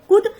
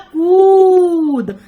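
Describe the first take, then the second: First: The u vowel is said short and quick. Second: The u vowel is drawn out long. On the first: The speaker calls it wrong. "क पर छोटा उ मात्रा ... wrong हो गया ना" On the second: The speaker calls it right. "बड़े समय के लिए जब मात्रा का उच्चारण हुआ"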